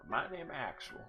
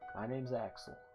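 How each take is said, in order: First: It is said in a robotic voice. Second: It is said in a natural voice.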